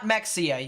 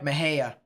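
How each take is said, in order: First: The middle is said with an 'ks' sound. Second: The middle is said without an 'ks' sound. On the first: The speaker calls it wrong. "It's not Mexia. You don't say the X" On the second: The speaker calls it right. "That sounds actually about right"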